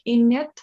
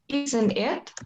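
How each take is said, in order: First: It is squeezed into one word sounding like innit. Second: Both words are said fully, with the t sound. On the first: "for the way they pronounce it, it sounds like in it" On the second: "supposedly isn't it"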